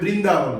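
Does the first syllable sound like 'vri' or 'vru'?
vri. The first syllable is pronounced 'vri'. This is how it is said elsewhere in Hindi. "कई जगह पर हिंदी में"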